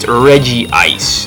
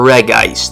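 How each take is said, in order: First: The name is said with three syllables. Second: The name is said with two syllables. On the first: The speaker calls it wrong. "it is not pronounced Regice" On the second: The speaker calls it right. "There is only one, so it's either Regice or Regice"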